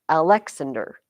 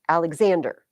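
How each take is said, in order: First: The stress is not on the third syllable. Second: The stress is on the third syllable. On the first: The speaker calls it wrong. "You're not Alexander" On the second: The speaker calls it right. "I would say and is Alexander"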